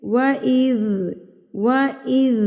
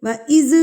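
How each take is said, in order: First: وَإِذْ said slowly, ذ soft and flowing; correct soft zaal. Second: وَإِذْ with ذ jolted, qalqala-style, higher and louder; wrong bounced zaal. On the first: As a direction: show the right way: gentle وَإِذْ. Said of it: "کیسے؟". (وَإِذْ صحیح، نرمی سے چلتی آواز) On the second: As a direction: demonstrate the mistake on وَإِذْ, shaking the ذ. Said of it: "غلط ہے". (وَإِذْ غلط، ذال کو ہلا کر) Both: Shown as a demonstration.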